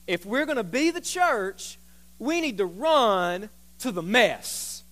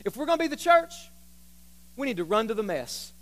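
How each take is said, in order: First: "run to the mess" stretched out, each word weighted; slow emphatic repeat. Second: Said in the usual way. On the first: Real, not acted. Preacher driving the first point home, slow and emphatic. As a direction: draw out "be the church" and "run to the mess".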